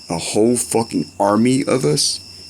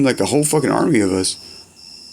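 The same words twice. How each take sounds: First: Slow, disbelieving repeat; stunned slow question; incredulous echo. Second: Said in the usual way. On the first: Real, not acted. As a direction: drag it out like you can't believe it. Echoes friend's words in disbelief.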